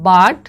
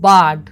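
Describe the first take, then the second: First: বার্ড said as a slow, clear model word with a rise at the end; বার্ড pronounced as "bard", stressed; English word said clearly. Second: বার্ড said as a clear model word, lower, with a falling tune; বার্ড pronounced as "bard", with a falling finish; English word said clearly. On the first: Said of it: "ইংলিশে বলবো". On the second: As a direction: repeat বার্ড firmly for the class. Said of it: "কী বলবো?". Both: Shown as a demonstration.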